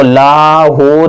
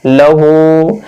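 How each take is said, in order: First: "लाहू" with a drawn-out ला; wrongly lengthened vowel. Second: "लहू" with a quick ल, then long हू; short first vowel. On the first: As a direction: stretch both vowels in "लाहू", laa-hoo. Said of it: "इसको लाहू नहीं पढ़ना है". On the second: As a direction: clip the ल short and draw out हू in "लहू". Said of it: "लाम को जल्दी पढ़ रहे हैं". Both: Shown as a demonstration.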